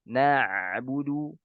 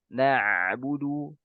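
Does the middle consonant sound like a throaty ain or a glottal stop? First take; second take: ain; ain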